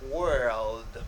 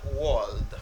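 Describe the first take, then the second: First: The vowel matches the one in bird. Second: The vowel differs from the one in bird. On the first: The speaker calls it right. "Er sound as in bird" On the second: The speaker calls it wrong.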